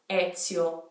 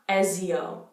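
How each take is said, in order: First: The middle consonant is a ts sound. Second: The middle consonant is a plain z sound. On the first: The speaker calls it right. "think of the word pizza" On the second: The speaker calls it wrong. "not Ezio"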